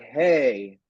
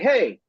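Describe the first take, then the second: First: It is said slowly and lower. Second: It is said fast and high.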